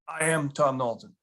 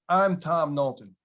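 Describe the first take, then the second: First: "I am" is said as two full words. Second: "I am" is contracted into one syllable. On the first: The speaker calls it right. "you say, "I am" before your name" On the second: The speaker calls it wrong. "Some people walk in and walk up to you and say"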